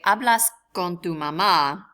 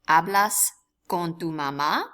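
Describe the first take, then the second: First: The pitch falls at the end. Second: The pitch rises at the end. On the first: It is a statement. "That is simply a, an affirmative statement" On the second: It is a question. "they simply use inflection"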